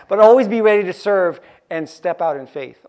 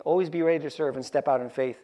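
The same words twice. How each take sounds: First: Louder, driving the line home; emphatic. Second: Said in the usual way. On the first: Shown as a demonstration. Preacher urging the congregation, loud and emphatic. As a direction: proclaim it to the whole room. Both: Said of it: "preacher repeats the line".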